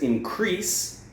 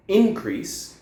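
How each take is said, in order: First: "increase" stressed on second syllable, in-CREASE; verb stress. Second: "increase" stressed on first syllable, IN-crease; noun stress. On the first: Teacher demonstrating the verb form, "increase" stressed on CREASE. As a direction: lean slowly on CREASE in "increase". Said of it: "increase is the verb form". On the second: Teacher demonstrating the noun form, "increase" stressed on IN. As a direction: punch IN at the start of "increase", slowly. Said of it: "is the noun form". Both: Shown as a demonstration.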